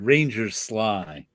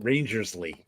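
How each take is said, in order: First: The name ends with a 'sly' sound. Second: The name ends with a 'slee' sound. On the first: The speaker calls it right. "his name is pronounced Ranger Sly" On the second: The speaker calls it wrong. "I always pronounced it Rangersley"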